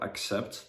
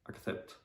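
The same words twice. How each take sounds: First: The c is said as an s sound. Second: The c is said as a th sound. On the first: The speaker calls it right. "instead of accept" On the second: The speaker calls it wrong. "pronounce the letter C as th"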